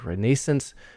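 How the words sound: It is said with a British pronunciation. "The British often say"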